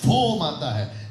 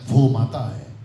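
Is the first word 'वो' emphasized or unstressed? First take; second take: emphasized; unstressed. First: The first word 'वो' is given clear emphasis. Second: The first word 'वो' is said without emphasis. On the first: It picks out one of two mothers. The speaker calls it right. "तो ये पढ़ने में कैसा आना चाहिए" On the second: It is a plain statement about the mother. The speaker calls it wrong. "लेकिन कैसे पढ़ लिया"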